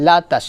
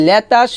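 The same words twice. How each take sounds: First: লাতাস with a clear long a, not e; correct la sound. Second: লেতাস as le-tas, the wrong way; wrong le sound. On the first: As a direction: say লাতাস with an open a vowel, la-tas. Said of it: "বলতে হবে লা". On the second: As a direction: say লেতাস with an e vowel, the common mistake. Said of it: "এখানে লেতাস হবে না". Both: Shown as a demonstration.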